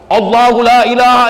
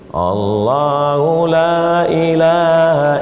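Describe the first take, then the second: First: It is recited loudly and forcefully. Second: It is recited softly and weakly. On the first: The reader is serious about it. The speaker calls it right. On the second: The reader does not seem serious. The speaker calls it wrong. "baca slow"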